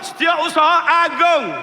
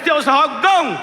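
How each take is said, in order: First: The word is said fully as 'Agung'. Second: The word is clipped to a short 'Gong'. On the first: The speaker calls it right. "kena sebut molek Setiausaha Agung" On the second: The speaker calls it wrong. "Kalau Kelantan kalau sebut Gong, Agung tu tak benar"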